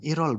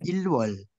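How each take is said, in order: First: The L links over as a soft R sound. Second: A clear L is followed by a W sound. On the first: The speaker calls it right. "Nah, irol, bukan ilwol" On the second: The speaker calls it wrong. "bukan ilwol"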